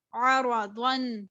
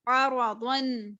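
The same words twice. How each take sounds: The two takes are said the same way.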